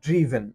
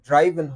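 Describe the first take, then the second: First: The first vowel sounds like 'ih'. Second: The first vowel sounds like 'eye'. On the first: The speaker calls it right. "এটা হবে ড্রিভেন" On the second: The speaker calls it wrong. "এটা ড্রাইভেন হবে না"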